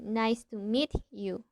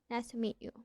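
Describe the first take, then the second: First: The t and y are said separately. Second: The t and y merge into a ch sound. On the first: The speaker calls it wrong. "instead of say" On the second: The speaker calls it right. "we say"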